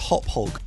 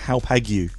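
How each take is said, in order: First: The name ends with a 'hog' sound. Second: The name ends with a 'gu' sound. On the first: The speaker calls it right. "It's actually pronounced Hophog" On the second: The speaker calls it wrong. "it looks like it's pronounced Hoppagu"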